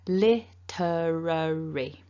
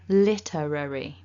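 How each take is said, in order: First: The word is said slowly. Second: The word is said at medium speed. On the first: "I'll say it slowly first" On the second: "And then a bit quicker"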